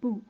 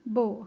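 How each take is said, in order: First: The vowel sounds like u. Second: The vowel sounds like o. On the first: The speaker calls it right. "बू ऊ की आवाज़ होना चाहिए" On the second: The speaker calls it wrong. "हम यूजुअली ये पढ़ते हैं जो कि गलत है"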